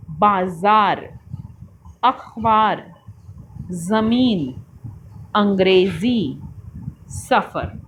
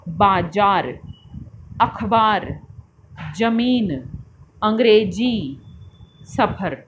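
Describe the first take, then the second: First: बाजार with z, ज़मीन with z, सफ़र with f; नुक्ता sounds z and f clearly; with nukta. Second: ज़मीन with j, सफ़र with ph; अंग्रेज़ी ending in ji instead of zi; without nukta. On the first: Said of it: "नुक्ते वाले शब्दों को बोलकर पढ़ते हैं". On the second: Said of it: "बिना नुक्ते के बोलेंगे". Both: Shown as a demonstration.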